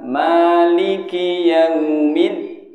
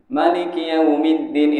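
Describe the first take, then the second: First: The first vowel of Maliki is long. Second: The first vowel of Maliki is short. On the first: This follows the usual reading tradition. "ma-nya panjang" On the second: This follows another reading tradition. "Ada yang pendek tapi itu riwayat yang lain"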